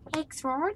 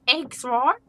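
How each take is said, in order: First: It is said in an accent sounding Australian. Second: It is said in a broader New Zealand accent. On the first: The speaker calls it wrong. "That was a little bit Australian" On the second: The speaker calls it right. "got to go down into the New Zealand"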